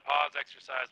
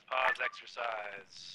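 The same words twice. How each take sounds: First: Said in the usual way. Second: Slowed and softer; slow, drawn-out call. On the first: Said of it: "calls the pause over radio". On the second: Real, not acted. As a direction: stretch out pause, exercise, drawing each word long and soft. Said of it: "repeats the pause call".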